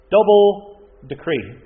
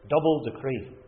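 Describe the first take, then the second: First: "double decree" much louder and slow; emphatic stress. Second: Said in the usual way. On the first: Real, not acted. Preacher hammers the phrase.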